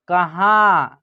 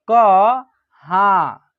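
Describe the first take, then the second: First: Said in the usual way. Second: कहाँ slowly, syllable by syllable, with the nasal drawn out; slow dictation of कहाँ; broken into syllables. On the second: Shown as a demonstration. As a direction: stretch कहाँ so the nasal vowel shows. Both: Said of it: "तोड़ के पढ़िएगा".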